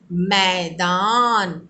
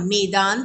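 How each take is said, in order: First: The first vowel sounds like 'ai'. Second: The first vowel sounds like 'e'. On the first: The speaker calls it right. "हम क्या बोलते हैं" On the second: The speaker calls it wrong. "मैदान तो नहीं बोलते हम"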